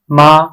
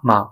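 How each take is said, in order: First: The syllable has a full high level tone. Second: The syllable has a short, weak neutral tone. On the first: "The first ma is in first tongue" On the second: "The second ma is in the neutral tongue"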